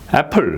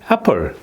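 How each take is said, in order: First: The stress falls on the second syllable. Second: The stress falls on the first syllable. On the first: The speaker calls it wrong. "풀의 소리가 탁 들리죠. 액센트가 거기 있는 것 같이 들리는 거예요" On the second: The speaker calls it right. "액센트가 여기에 있잖아요"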